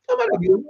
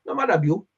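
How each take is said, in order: First: Emphatic high exclamation. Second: Said in the usual way. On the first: Shown as a demonstration. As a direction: jump way up in pitch on it. Repeats the phrase, second time emphatic.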